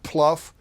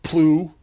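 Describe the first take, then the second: First: The word rhymes with tough. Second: The word rhymes with through. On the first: "Not pluff" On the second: "not plew"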